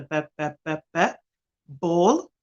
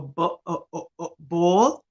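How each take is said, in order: First: B b b, then ball rising; sounding out ball. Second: O o o drawn out, then ball; stretching the vowel. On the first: Showing parents how to repeat ball, b b b. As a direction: drill the b in ball. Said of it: "the repetition of the". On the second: Showing another way to sound out ball, o o o. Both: Shown as a demonstration.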